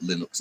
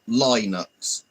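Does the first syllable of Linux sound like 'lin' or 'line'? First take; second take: lin; line. First: The first syllable sounds like the start of linen. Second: The first syllable sounds like the word line. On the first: The speaker calls it right. "like linen" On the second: The speaker calls it wrong. "as in you're saying line"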